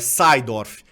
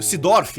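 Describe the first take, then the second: First: Said with a Dutch pronunciation. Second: Said with a Brazilian Portuguese pronunciation. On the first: The speaker calls it right. "é Seidorf" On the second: The speaker calls it wrong. "Sidorf é Seidorf"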